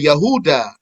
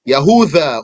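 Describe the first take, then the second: First: The middle consonant is a plain d sound. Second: The middle consonant is a soft th sound. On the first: "or a da" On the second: "with a thal"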